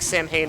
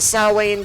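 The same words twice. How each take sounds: First: It uses the colloquial pronunciation of the word. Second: It uses the traditional pronunciation of the word. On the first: "the colloquial uh, way to pronounce it" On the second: "that's really how you say the word"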